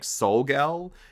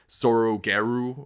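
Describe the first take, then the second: First: It is said with an English L sound. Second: It is said with Japanese R sounds. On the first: "the official pronunciation, at least in like English, is like" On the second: "during the movie they pronounce it as like"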